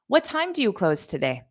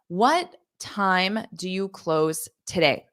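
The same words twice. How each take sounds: First: The phrase is said quickly and smoothly. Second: The phrase is said slowly and carefully.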